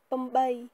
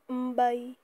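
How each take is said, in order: First: The word is shortened, starting with plain p. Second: The word is cut short, starting with m. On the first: "Si vous voulez aller plus vite à l'oral, vous pouvez dire pambay" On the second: "Pambay ou mbay"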